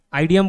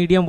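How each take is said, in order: First: "आइडियम" said with a long "aai" at the start; wrong pronunciation. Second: "इडियम" with a short "i" like idiot; right pronunciation. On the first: Teacher shows students the wrong way of saying it. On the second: Teacher gives students the correct pronunciation. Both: Shown as a demonstration. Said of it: "इडियम बोले, जैसे ऐसे बोलना है".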